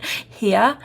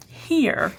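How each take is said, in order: First: Boston "Here." said as "heah" with no R; Boston accent. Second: Said in the usual way. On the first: Shown as a demonstration. Showing viewers her Boston accent, no R. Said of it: "We don't pronounce R's up north". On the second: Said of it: "so I just said here".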